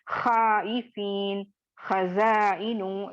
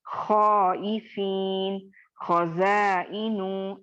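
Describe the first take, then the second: First: खाइफीन and खज़ाइनु said with a light, thin खा; wrong light reading. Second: खौइफीन and खज़ाइनु with a full, rounded खौ; heavy reading. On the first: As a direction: show the wrong flat version. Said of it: "इस तरह से नहीं पढ़ेंगे". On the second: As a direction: show the correct thick version slowly. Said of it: "इस तरह से पढ़ेंगे". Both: Shown as a demonstration.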